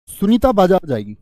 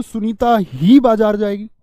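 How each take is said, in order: First: Said in the usual way. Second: Slow, weighty reading with ही punched louder; emphatic teacher demo, ही hit hard; stress on ही. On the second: Shown as a demonstration. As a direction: lean hard on the word ही and slow the whole sentence down. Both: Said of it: "लेकिन मैं जोर देके बोलूं".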